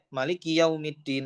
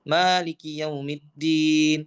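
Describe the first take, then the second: First: The first vowel of maliki is short. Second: The first vowel of maliki is long. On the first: God is the king of the Day of Judgment. "kalau ma-nya pendek" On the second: God is the owner of the Day of Judgment. "kalau ma-nya panjang itu artinya pemilik"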